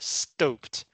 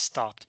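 First: The vowel is a long o sound. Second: The vowel is a short ah sound. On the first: The speaker calls it wrong. "if it looks like this, it is pronounced stoped" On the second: The speaker calls it right. "If you want the shorter vowel sound, the ah sound, there should be two P's"

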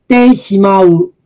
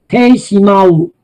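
The two takes are said the same way.

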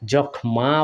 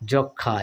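First: The kh consonant is single, followed by m. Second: The kh consonant is doubled, with no m. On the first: The speaker calls it wrong. "যক্ষমা বলি না" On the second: The speaker calls it right. "এইভাবে double করে উচ্চারণ করি"

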